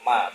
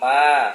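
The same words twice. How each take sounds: First: The vowel is short. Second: The vowel is long. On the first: It means 'what' or 'that which'. "Pendek ya" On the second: It means 'not'. "bukan ma. Kalau ma yang panjang"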